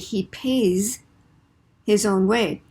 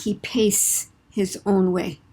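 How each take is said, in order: First: The word pays ends with a buzzing z sound. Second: The word pays ends with a hissing s sound. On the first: The speaker calls it right. "turn your vocal cords on, and make the s a z" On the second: The speaker calls it wrong.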